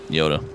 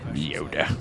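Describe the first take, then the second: First: It is said in an ordinary speaking voice. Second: It is said in an imitated character voice. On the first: The speaker calls it wrong. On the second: The speaker calls it right.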